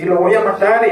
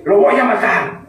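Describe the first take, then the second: First: Higher, imitated angry vow; mock threat again. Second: Higher, put-on angry threat; hammed-up furious vow; mock threat. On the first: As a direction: repeat the threat in a staged rage. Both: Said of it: "Malo cuando dice él".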